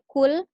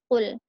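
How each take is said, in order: First: It begins with a plain k sound. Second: It begins with a deep throat q sound. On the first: It means 'eat'. The speaker calls it wrong. "huruf qa-nya berubah jadi huruf ka" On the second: It means 'say'. The speaker calls it right. "Qul ini adalah yang pakai huruf qaf artinya katakanlah"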